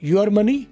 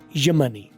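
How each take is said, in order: First: 'Your' is pronounced in full. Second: 'Your' is reduced to a short 'ya'.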